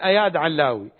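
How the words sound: The name is said with the Iraqi pronunciation. The speaker calls it wrong. "هكذا نحن نقول"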